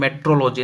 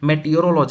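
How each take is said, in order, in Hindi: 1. यह शब्द छोटा बोला जाता है, जैसे metrology। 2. यह शब्द पूरा बोला जाता है, जैसे meteorology। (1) "मेट्रोलॉजी नहीं" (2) "मेटियोरोलॉजी होता है"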